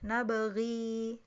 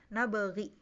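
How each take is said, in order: First: The final vowel is held long, two beats. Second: The final vowel is short. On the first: It follows the reading that keeps the final ya. "Qulun harus dibaca panjang" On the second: It follows the reading without the final ya. "nabaghi tanpa ya, pendek ya"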